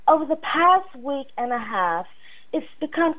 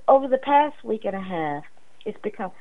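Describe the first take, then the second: First: It is read in an imitated woman's voice. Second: It is read in the speaker's natural voice.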